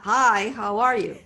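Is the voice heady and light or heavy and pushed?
heavy. The voice is heavy and pushed.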